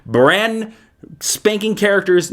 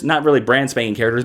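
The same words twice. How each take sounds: First: BRAND drawn out high, then a pause; emphatic hype. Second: Said in the usual way. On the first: Real, not acted. Hypes characters, then walks it back.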